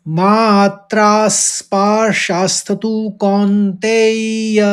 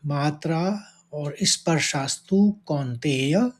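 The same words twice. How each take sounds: First: Chanted, "मात्रा स्पर्शास्तु कौन्तेय" raised and drawn out, beats on मात्रा; chanted, intone the line stressing मात्रा; chanted, धीमा, ऊँचा पाठ; slow verse chant. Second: Said in the usual way. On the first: Shown as a demonstration. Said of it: "इस तरह से इसको उच्चारित करेंगे।". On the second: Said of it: "पहले चरण में दो शब्द हैं".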